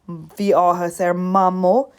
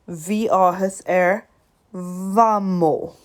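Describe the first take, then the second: First: The last word begins with an M sound. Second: The last word begins with a V sound. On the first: The speaker calls it wrong. "instead of saying" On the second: The speaker calls it right. "M H makes a V sound when you put them together"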